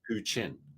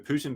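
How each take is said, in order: First: The middle consonant is a 'ch' sound. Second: The middle consonant is a 't' sound.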